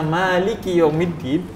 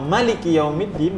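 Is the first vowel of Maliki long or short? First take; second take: long; short. First: The first vowel of Maliki is drawn out long. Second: The first vowel of Maliki is kept short. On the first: The word is read with four letters. "dapat empat puluh pahala. Iya. Karena ada empat huruf" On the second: The word is read with three letters. "dia hanya tiga huruf"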